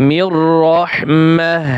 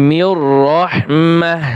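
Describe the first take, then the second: No difference in how they are said.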